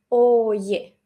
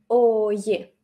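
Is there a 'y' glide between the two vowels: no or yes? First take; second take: yes; yes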